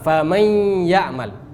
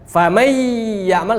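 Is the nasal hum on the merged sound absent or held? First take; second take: held; absent. First: The merged sound carries a held nasal hum. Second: The merged sound has no nasal hum. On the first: The speaker calls it right. "kita harus baca dengan dengung" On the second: The speaker calls it wrong. "salah. Kenapa salah? Enggak ada dengungnya"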